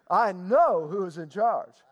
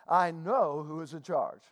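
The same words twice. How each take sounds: First: It is said with more gusto and energy. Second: It is said with ordinary, lower energy.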